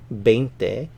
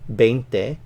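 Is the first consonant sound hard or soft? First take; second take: hard; hard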